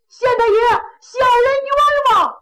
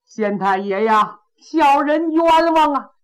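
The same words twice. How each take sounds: First: Much higher and louder, crying out for justice; ringing loud plea. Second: Loud plea. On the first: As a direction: belt it up to the magistrate. (大个子高声喊冤，嗓门洪亮) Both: Acted. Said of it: "这大个子嗓门儿挺亮".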